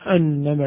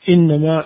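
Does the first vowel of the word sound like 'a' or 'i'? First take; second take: a; i. First: The word begins with an 'a' vowel. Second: The word begins with an 'i' vowel. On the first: The speaker calls it right. "صوابها بفتح الهمزة" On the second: The speaker calls it wrong. "عندنا بالكسر"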